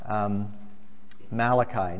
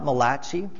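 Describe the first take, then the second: First: The name is said in a plain English way. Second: The name is said with an Italian-sounding ending. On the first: The speaker calls it right. "this is Malachi" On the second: The speaker calls it wrong. "The only Italian prophet of the Old Testament?"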